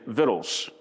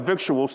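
First: The word is said in a shortened form. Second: The word is said fully, as spelled. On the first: This is how others traditionally say it. "I've heard fundamentals over the years say victuals" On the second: This is how the word looks when written. "Looks like victuals to me"

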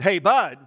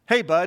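First: It sounds forceful and emphatic. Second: It sounds like a casual, friendly greeting.

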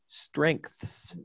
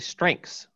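First: Every sound, including th, is clearly pronounced. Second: The th sound is left out. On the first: "I would probably carefully say strengths" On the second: "I don't think I pronounced the th in writing, the theta in sounds. I think I just say strengths"

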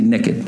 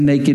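First: The word is said with a Texan drawl. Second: The word is said with standard pronunciation. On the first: The speaker calls it right. "I'm from Texas originally. We say naked" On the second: The speaker calls it wrong. "We don't say naked"

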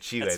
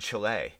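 First: It is said with a Spanish-style pronunciation. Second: It is said with an anglicized English pronunciation. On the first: The speaker calls it right. "when I say Chile" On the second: The speaker calls it wrong. "they just botch it"

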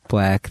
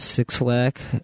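First: The name is said as one word, black. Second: The name begins with the word six, then lack. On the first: The speaker calls it right. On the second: The speaker calls it wrong. "It's a six and then Lack"

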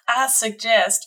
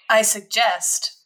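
First: It is spoken in a Southern accent. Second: It is spoken without a Southern accent. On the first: "I'm going to accidentally give him a Southern accent again" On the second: "Just kidding"

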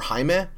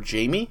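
First: The name is said a non-English way. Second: The name is said the English way.

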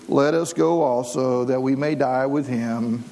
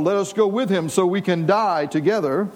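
First: It sounds gloomy and pessimistic, like Eeyore. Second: It sounds bold, like a warrior rallying troops.

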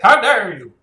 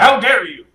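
First: It is said in a put-on wizard voice. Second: It is said in a normal speaking voice.

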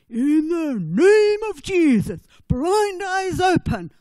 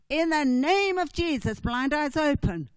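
First: It is said in a German accent. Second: It is said in a plain accent. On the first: The speaker is imitating another preacher. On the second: The speaker is using his own voice.

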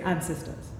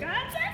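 First: It is said calmly at normal loudness. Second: It is screamed loudly.

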